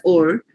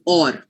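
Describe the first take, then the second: First: "or" with a rounded, closed o as in "ore"; their accent's pronunciation. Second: "or" with an open aw vowel and sounded r; Indian pronunciation. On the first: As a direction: demonstrate the foreign-accent "or", like "ore". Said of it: "They might say it as or". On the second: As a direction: demonstrate the Indian English "or", like "awr". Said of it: "We say it as or". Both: Shown as a demonstration.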